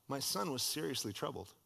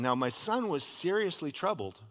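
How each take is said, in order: First: Much softer, grave repetition; quiet. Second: Said in the usual way. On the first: Shown as a demonstration. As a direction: drop it to a hushed echo. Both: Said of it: "repeated softly".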